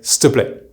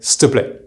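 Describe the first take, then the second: First: The 'il' vowel is dropped entirely. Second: The 'il' vowel is dropped entirely.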